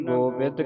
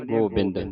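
First: ਗੋਬਿੰਦ as gobed, no nasal n; without tippi. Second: ਗੋਬਿੰਦ with a nasal n, gobind; common misreading. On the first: Teacher reading the line correctly, no nasal. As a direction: drop the n from ਗੋਬਿੰਦ. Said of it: "ਇੱਥੇ ਹੁਣ ਟਿੱਪੀ ਨਹੀਂ ਲੱਗੀ ਗੋਬਿੰਦ ਦੇ". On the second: Teacher quoting how congregations read it, mistaken pronunciation. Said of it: "ਤੇ ਸੰਗਤਾਂ ਪੜ੍ਹ ਜਾਂਦੀਆਂ ਗੋਬਿੰਦ". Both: Shown as a demonstration.

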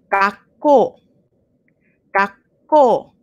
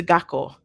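First: "gakko" with a short stop before the K, ga-kko; double consonant pause. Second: "gakko" said smoothly without the stop before the K; no double consonant pause. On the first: Teacher showing the double K pause in "gakko" to students. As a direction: hold a tiny catch before the k in "gakko". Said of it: "pause right before the sound". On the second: Teacher contrasting "gakko" without the pause for students. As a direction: run "gakko" together with no catch. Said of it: "as opposed to gakko". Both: Shown as a demonstration.

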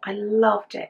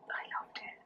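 First: Said in the usual way. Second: Breathy near-silent whisper of I loved it. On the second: Real, not acted. Recalling Jackanory, she whispers to herself. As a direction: let it slip out as a hush. Fond childhood memory, said twice.

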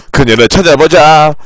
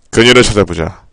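First: 1 laughing re-read. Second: Said in the usual way. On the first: Acted.

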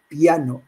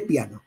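First: "piano" said pi-a-no in three separate syllables; Catalan-style "piano" in three syllables, pi-a-no. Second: "piano" said pia-no in two syllables; South American "piano" in two syllables, pia-no. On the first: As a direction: split "piano" into pi-a-no with a break in the vowels. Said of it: "tiende mucho más a la diéresis". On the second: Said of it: "contará que tiene dos". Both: Shown as a demonstration.

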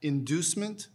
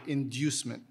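First: "Inducement" as in-DOOS-ment, rising at the end; first pronunciation. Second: "inducement" as in-DYOOS-ment, falling at the end; second pronunciation. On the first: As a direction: offer "Inducement" with a plain DOO. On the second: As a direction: say "inducement" with a y-glide after the d. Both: Shown as a demonstration. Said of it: "Can I hear the pronunciations again".

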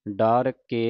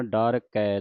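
First: ਡਰ ਕੇ ending in a closed e; the wrong way: ਡਰ ਕੇ with a plain e; wrong dar ke. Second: ਡਰ ਕੈ ending in an open ai; dar kai. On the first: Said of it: "ਡਰ ਕੇ ਨਹੀਂ ਪੜ੍ਹਨਾ". (ਗਲਤ ਉਚਾਰਨ ਡਰ ਕੇ) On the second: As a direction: end ਡਰ ਕੈ on a broad ai vowel. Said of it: "ਡਰ ਕੈ ਦਲਾਵਾਂ ਦੇ ਨਾਲ". (ਦੁਲਾਵਾਂ ਨਾਲ ਡਰ ਕੈ) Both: Shown as a demonstration.

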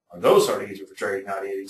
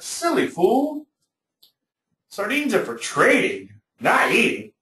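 First: Said in the usual way. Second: High, slow scornful put-down; mock the fool in a high, slow voice; scornful trader. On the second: Old trader scolds the buyer.

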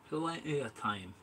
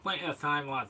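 First: Slow, half-hearted fake Scottish accent; a hint of a Scottish fisherman. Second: Light mock Scottish accent; brief put-on Scottish lilt; fake Scottish. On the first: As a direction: drawl it out in a put-on Scottish lilt. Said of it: "went all weird and fake Scottish then". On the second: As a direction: slip a touch of Scotland into it. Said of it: "fake Scottish then".

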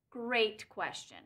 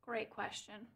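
First: "Great question" said slowly and lower; slow drawn-out. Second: Said in the usual way. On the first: Shown as a demonstration. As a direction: stretch "Great question" out with a dry pause.

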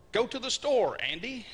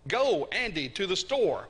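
First: "Andy" held back after "store"; end-position emphasis demo. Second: "Go" first, "Andy" set between commas; emphasis by position. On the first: Preacher showing Greek word order, "Andy" set last. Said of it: "putting it at the end of the sentence". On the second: Preacher quizzing on word order, stressed "Go" and "store". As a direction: punch "Go" and "store" around "Andy". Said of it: "What's the most important part of that?". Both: Shown as a demonstration.

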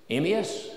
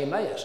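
First: Emmaus said as "EE-mee-us", stress on the first syllable. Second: Emmaus said as "em-MAY-us", stress on the middle syllable; Emmaus, the other way. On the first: Preacher shows his own Emmaus, stress on the first syllable. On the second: Preacher gives the other Emmaus, em-MAY-us. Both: Shown as a demonstration. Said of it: "I'm right".

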